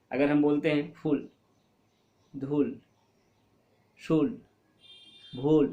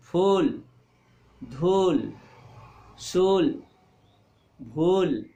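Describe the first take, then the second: First: फूल, धूल, शूल, भूल with the ू cut short; wrong short vowel. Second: फूल, धूल, शूल, भूल with the ू drawn out and louder; long stressed u. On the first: Teacher showing pupils the wrong way: short vowels. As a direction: clip the u sounds too short on purpose. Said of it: "तो ये सही नहीं होगा". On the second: Teacher to pupils, after the wrong version: stretched, stressed vowels. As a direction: lean on and stretch each ू. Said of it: "थोड़ा सा उस पर बल दीजिए". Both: Shown as a demonstration.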